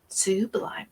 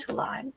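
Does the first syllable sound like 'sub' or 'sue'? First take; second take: sue; sub. First: The first syllable sounds like 'sue'. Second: The first syllable sounds like 'sub'. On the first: It is a person's name. The speaker calls it right. "You gotta get her name right" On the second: It is the ordinary adjective. The speaker calls it wrong. "Sublime is the a- adjective"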